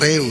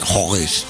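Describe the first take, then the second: First: The name is pronounced the local way. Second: The name is pronounced the German way. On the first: The name is recognized as the real town. The speaker calls it right. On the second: A foreign visitor is saying the name. The speaker calls it wrong.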